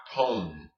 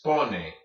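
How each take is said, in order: First: Pone with a silent final e, one syllable; wrong English-style pone. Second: Pone said in two syllables, final e sounded; correct Spanish pone. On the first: Teacher warns against the silent e, mispronounced pone. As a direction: say pone as an English word, e dropped. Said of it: "not pone". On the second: Teacher models Spanish for students, pone with final e voiced. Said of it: "This is pone, not pone". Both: Shown as a demonstration.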